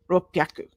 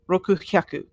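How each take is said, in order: First: The parts merge into 'ppya' with a p. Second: The parts are kept apart with 'ku-hya'. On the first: The speaker calls it right. "So we just join them together so we can say them" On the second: The speaker calls it wrong. "It's difficult to say rokuhaku. It's it's just too much"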